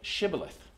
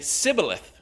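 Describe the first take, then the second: First: The word begins with a 'sh' sound. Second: The word begins with an 's' sound. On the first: The speaker calls it right. "say Shibboleth" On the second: The speaker calls it wrong. "He couldn't say it right"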